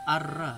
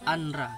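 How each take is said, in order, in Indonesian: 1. Bunyi n hilang, menyatu dengan r yang ganda. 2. Bunyi n terdengar jelas sebelum r. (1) "tapi karena masuk hukum idgham bila gunah jadi arra" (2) "Seharusnya kan dibaca anra"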